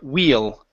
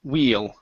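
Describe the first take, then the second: Both takes have the same delivery.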